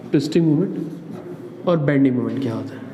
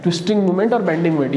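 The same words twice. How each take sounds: First: Slow and softer, each word spaced for writing; slow dictation. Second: Said in the usual way. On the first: Shown as a demonstration. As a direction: dictate "twisting moment और bending moment" slowly for students to copy. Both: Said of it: "heading में लिख लेना".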